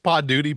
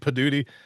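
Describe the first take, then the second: First: It is said as two clear separate words. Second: It is run together with a reduced first vowel. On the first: Listeners can understand and spell it. "the way you say it, people understand it and they can spell it" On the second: Listeners cannot tell how it is spelled. "The way I say it, nobody knows"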